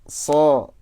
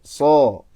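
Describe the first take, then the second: First: The letter sounds light and thin. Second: The letter sounds heavy and full. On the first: The speaker calls it wrong. "Itu nggak tebal itu" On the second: The speaker calls it right. "harus dinaikkan rahangnya supaya tebal bacaannya"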